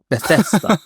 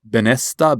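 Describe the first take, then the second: First: The middle consonant is a 'th' sound. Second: The middle consonant is an 'n' sound. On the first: The speaker calls it right. "there we go" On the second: The speaker calls it wrong. "it was always something like Benesta"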